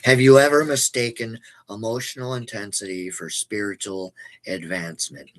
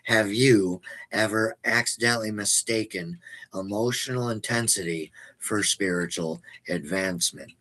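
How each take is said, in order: First: The question is said at a normal pace. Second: The question is said slowly.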